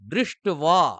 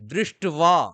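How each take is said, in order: First: The word has a w sound after t. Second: The same.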